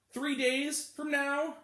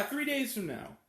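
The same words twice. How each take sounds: First: Drawn out. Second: Said in the usual way. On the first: Shown as a demonstration. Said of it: "stretched then repeated". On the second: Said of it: "repeated at normal pace".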